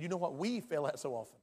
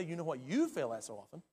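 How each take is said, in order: First: "we" appuyé, qui inclut le prédicateur; stress on we. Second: "you" appuyé, accusateur envers l'auditoire; stress on you. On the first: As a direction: pose l'accent sur le mot we. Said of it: "I said". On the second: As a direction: pointe le mot you, pas we. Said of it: "By the way, I didn't say". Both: Shown as a demonstration.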